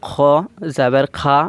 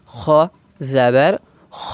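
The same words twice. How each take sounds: First: খা stretched long as the mistake; wrong long kha. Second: খ said short and quick after জাবার; slow syllable drill ending in a short খ; short kha. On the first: Teacher demonstrating the wrong long খা to students. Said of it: "আমরা পড়বো না". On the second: Teacher modelling the correct short খ for students. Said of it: "এইভাবে পড়ব". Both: Shown as a demonstration.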